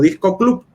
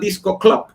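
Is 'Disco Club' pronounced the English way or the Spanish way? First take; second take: Spanish; English. First: It is pronounced with Spanish sounds. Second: It is pronounced with English sounds.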